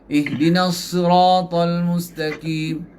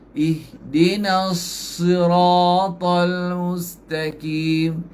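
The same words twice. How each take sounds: First: The phrase is recited at a fast pace. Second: The phrase is recited at a slow pace. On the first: "Tuan-tuan baca Quran tu laju" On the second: "Kalau baca perlahan"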